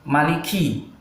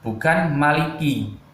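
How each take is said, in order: First: The K is said with a puff of air. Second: The K is said without a puff of air. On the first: The speaker calls it right. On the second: The speaker calls it wrong.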